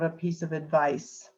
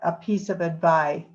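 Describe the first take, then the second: First: The final consonant of advice is clearly pronounced. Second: The final consonant of advice is left off. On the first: The speaker calls it right. "instead of" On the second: The speaker calls it wrong. "words where you dropped the final consonant"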